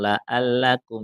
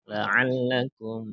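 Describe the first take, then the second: First: The 'ain' sound is light and barely pressed. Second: The 'ain' sound is pressed strongly from the throat. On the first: The speaker calls it wrong. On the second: The speaker calls it right. "ainnya ditekan"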